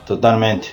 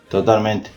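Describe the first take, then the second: No difference in how they are said.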